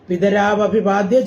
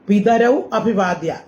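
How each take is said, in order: First: The two words are joined, linked by av. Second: The two words are said separately, ending in au.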